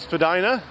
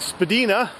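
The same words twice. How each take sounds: First: The name is said the common, current way. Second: The name is said the older, original way. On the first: This is how most people say it today. "most people these days pronounce it Spadina, including myself" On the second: This is how it was said when the street was new. "historically, ... was originally pronounced Spadina"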